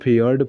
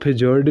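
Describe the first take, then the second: First: A y sound replaces the j after the f. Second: A j sound is heard after the f. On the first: The speaker calls it right. "इसको फियर्ड पढ़ते हैं, क्योंकि इसमें जे silent होता है" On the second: The speaker calls it wrong. "इसको फिजर्ड नहीं पढ़ते हैं"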